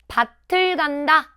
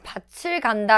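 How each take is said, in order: First: The consonant in the first word sounds like t. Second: The consonant in the first word sounds like ch. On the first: The speaker calls it right. "나는 밭을 간다 라고 해야지" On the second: The speaker calls it wrong. "라고 하면 안 돼요"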